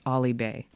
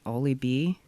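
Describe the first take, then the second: First: The name ends with an 'ay' vowel sound. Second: The name ends with an 'ee' vowel sound. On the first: The speaker calls it right. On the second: The speaker calls it wrong. "I never say it right. Is it Ollie B?"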